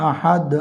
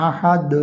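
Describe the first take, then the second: No difference in how they are said.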